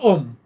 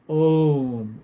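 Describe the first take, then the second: First: The vowel is a plain, short 'oh'. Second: The vowel glides from 'ah' through 'oo'. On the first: The speaker calls it wrong. "It's not Om" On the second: The speaker calls it right. "It's Om. A U M. That's the correct pronunciation"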